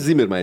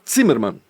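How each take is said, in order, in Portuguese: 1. O nome começa com um som de z simples. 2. O nome começa com um som de ts. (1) "Não é Zimmermann" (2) "o Z se pronuncia T Z em alemão"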